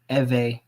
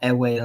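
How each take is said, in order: First: The name is said the way its people say it. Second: The name is said the common outsider way. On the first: The speaker calls it right. "their name is pronounced Ewe" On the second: The speaker calls it wrong. "it's not Ewe like a lot of people"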